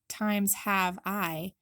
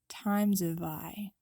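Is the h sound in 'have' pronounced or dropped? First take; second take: pronounced; dropped. First: The h in 'have' is clearly pronounced. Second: The h is dropped and the words are linked. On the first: The speaker calls it wrong. "instead of saying times have I" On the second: The speaker calls it right. "you'll drop the H and link all the words together"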